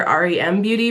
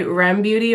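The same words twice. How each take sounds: First: "R E M" said letter by letter; "R E M" as an initialism, ar-ee-em; spelled out. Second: "Rem" as one syllable in "Rem Beauty"; "Rem" read like a name, rhyming with "gem"; said as a word. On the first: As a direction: spell "R E M" as three separate letters. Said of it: "or R E M Beauty". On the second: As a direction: say "Rem" as a single word, not spelled out. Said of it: "supposed to say Rem Beauty or". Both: Shown as a demonstration.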